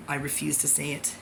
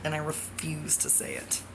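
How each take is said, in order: First: Said in the usual way. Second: Unvoiced whisper of "I refuse to say it"; whispered refusal. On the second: Real, not acted. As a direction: breathe the words with no voice. Whispered then repeated aloud.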